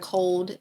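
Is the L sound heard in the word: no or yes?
yes. The L sound is pronounced clearly. "instead of cold"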